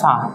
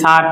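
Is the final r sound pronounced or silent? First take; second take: silent; pronounced. First: The final r sound is silent. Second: The final r sound is pronounced. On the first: The speaker calls it right. "সুতরাং হবে সা" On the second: The speaker calls it wrong. "তাহলে স্যার উচ্চারণটা হবে না"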